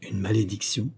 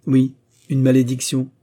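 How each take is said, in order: First: Soft questioning MALÉDICTION, rising; hushed, disbelieving rise on MALÉDICTION; questioning echo. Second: Louder, emphatic OUI, UNE MALÉDICTION; loud, insistent stress on MALÉDICTION; firm confirmation. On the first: Baron echoes the word in shock. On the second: Sigurd confirms the word firmly. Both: A narrator's reading.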